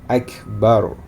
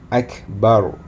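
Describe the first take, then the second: The two takes are said the same way.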